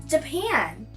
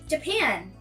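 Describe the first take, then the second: Both takes have the same delivery.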